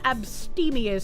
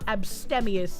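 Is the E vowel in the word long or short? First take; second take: long; short. First: The E is said as a long vowel. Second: The E is said as a short vowel. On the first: The speaker calls it right. "I'm pretty sure it's abstemious" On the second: The speaker calls it wrong. "not abstemious, even though normally I would want to do a short E"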